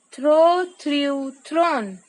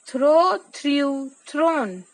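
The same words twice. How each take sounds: The two takes are said the same way.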